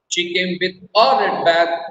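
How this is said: The stress is on "a".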